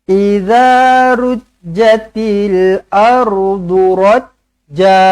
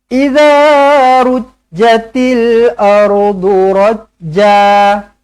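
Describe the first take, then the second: The two takes are said the same way.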